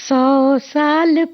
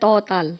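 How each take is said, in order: First: The s sounds are clear and forcefully pronounced. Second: The s sounds come out like t sounds. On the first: The speaker calls it right. "स word जो है हमेशा बहुत स्पष्ट और जोर देके" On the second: The speaker calls it wrong. "तो वो लगता है तौ ताल है ना"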